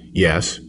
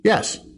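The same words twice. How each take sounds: First: It is said at a lower pitch. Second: It is said at a higher pitch.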